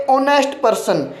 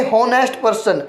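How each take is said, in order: First: ਓਨੈਸਟ person said with a silent h, opening on the vowel "o"; correct silent h. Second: ਹੋਨੈਸਟ person with a sounded h at the start; wrong pronunciation with h. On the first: Teacher showing students the right way, ਓਨੈਸਟ with silent h. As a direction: say ਓਨੈਸਟ starting straight on the vowel, no h. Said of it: "ਇਸ ਨੂੰ ਅਸੀਂ ਬੋਲਾਂਗੇ". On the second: Teacher showing students the common mistake, ਹੋਨੈਸਟ with h. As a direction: say ਹੋਨੈਸਟ with a clear breathy h before the o. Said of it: "ਨਾ ਕਿ ਹੋਨੈਸਟ person". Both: Shown as a demonstration.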